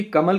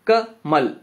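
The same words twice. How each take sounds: First: कम said together, pause, then ल alone; slow कम, with ल left till after; wrong syllable split. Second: कमल as short "ka", pause, then "mal" together; ka alone, then mal in one beat; right syllable split. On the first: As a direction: break कम ल as "kam", gap, "la". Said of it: "कम को एक साथ नहीं बोलते". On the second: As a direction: slowly break कमल after the first syllable. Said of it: "आप पहले का बोलते हैं". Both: Shown as a demonstration.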